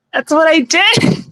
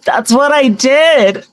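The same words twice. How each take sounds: First: High, slow witch voice, rising end; witchy voice. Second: High, slow witch voice, falling end; witchy voice. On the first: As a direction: lilt it up like a witch. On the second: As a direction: say it like a cackling witch. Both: Shown as a demonstration. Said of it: "it sounds like a wicked witch laughing".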